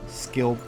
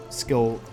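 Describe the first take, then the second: No difference in how they are said.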